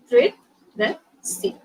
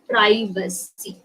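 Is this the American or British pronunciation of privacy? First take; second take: British; American. First: It is said with a British pronunciation. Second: It is said with an American pronunciation. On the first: "in British English, uh, they pronounce it as privacy" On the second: "That is the American pronunciation actually"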